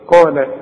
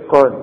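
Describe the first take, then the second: First: The word ends with a short a vowel. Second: The word ends on the consonant with no vowel. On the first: The word is joined to the next word. "عند الوصل هنفتحها" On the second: The reciter pauses on this word. "تقف على قال دي بالسكون"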